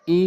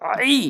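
First: "ই" as a clean ee; plain hamza. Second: "আই" as ee pushed through a squeezed throat; throaty ain. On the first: Teacher drilling hamza against ain, plain "ই". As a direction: say "ই" without throat constriction. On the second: Teacher drilling ain against hamza, throaty "আই". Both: Shown as a demonstration. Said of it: "উচ্চারণ করতে হবে আইন এনে".

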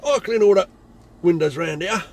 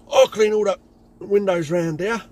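First: Loud menacing threat; aggressive threat. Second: Aggressive threat. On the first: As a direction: repeat the threat with force. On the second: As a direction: lean in and threaten him. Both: Retold or imitated. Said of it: "trying to be aggressive".

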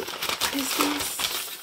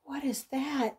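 First: Slow, hushed whisper; awed slow whisper to herself. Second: Said in the usual way. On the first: Real, not acted. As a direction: breathe it out in wonder, slowly. Whispering in awe at the item.

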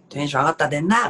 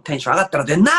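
First: Mock yell. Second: Louder shouted retort on 出んな; comedy yell. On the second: Pretend. Practising a comedy duo retort, a louder mock yell. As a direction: throw the line out like a manzai tsukkomi. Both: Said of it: "怒鳴り系いけるわ".

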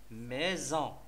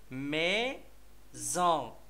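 First: Said in the usual way. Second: Slow "ميزون", mei, then a gap, zon; split into syllables. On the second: Shown as a demonstration. Teacher naming the third picture for children, "ميزون" slowly syllable by syllable. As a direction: hold each syllable of "ميزون" apart. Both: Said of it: "السيلاب الثاني هو زون".

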